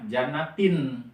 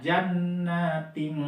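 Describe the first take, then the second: First: The final n is pronounced as a clear n. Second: The final n is hidden into a nasal ng. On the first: It is read literally without tajwid rules. "baca apa adanya" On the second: It is read applying the ikhfa tajwid rule. "karena di sini kita memakai e, ilmu tajwid, jadi dibacanya jannating ting"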